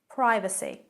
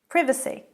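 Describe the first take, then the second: First: It is pronounced the American way. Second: It is pronounced the British way. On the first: "privacy in American English" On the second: "but in British English"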